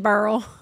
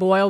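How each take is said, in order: First: The vowel is said like 'er', a regional accent. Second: The vowel is said as a standard 'oy'. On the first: "we say crawfish burl" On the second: "instead of saying boil"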